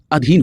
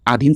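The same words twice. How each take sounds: First: अधीन begun with a short a, adheen; correct first vowel. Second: अधीन begun with a long aa, aadheen; wrong first vowel. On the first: Teacher correcting students' pronunciation, अधीन said as a-dheen. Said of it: "अधीन होता है". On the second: Teacher showing students their mistake, अधीन said as aadheen. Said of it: "pronunciation आप गलत कर रहे हैं". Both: Shown as a demonstration.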